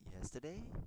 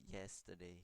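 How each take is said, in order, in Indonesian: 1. Nadanya naik di akhir. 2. Nadanya datar, seperti pernyataan biasa. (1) "naik dia jadi menjadi sebuah pertanyaan" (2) "biasa aja kan, bukan pertanyaan kan"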